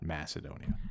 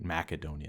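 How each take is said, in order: First: The c is said as a soft s sound. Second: The c is said as a hard k sound. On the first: The speaker calls it wrong. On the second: The speaker calls it right. "It was a hard C"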